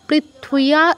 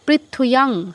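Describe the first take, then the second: First: The word ends on a plain open vowel. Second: The word ends with a nasal hum. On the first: The speaker calls it wrong. "Sorry অনুসারটা আমি বাদ দিয়ে গেছি।" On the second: The speaker calls it right. "Sorry অনুসারটা আমি বাদ দিয়ে গেছি।"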